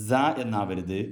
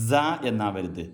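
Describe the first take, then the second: No difference in how they are said.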